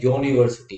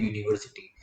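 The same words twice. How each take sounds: First: यूनिवर्सिटी with "yo" as its first sound; correct pronunciation demo. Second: Said in the usual way. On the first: Shown as a demonstration. Teacher corrects common usage, यूनिवर्सिटी said "yo-niversity". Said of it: "वैसे correct है". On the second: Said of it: "हम बोलते हैं".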